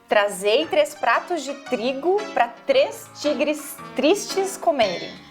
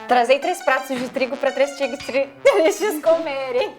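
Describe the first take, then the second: First: It is said slowly. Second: It is said quickly.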